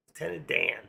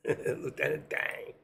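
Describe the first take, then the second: First: Said in the usual way. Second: Laughing, Dan said with a final g, "Dang"; "Lieutenant Dang" with a nasal ng ending. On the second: Shown as a demonstration. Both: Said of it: "I always thought he said Dang".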